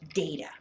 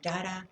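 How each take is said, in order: First: It is said the teacher's own usual way. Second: It is said the way Spanish speakers say it.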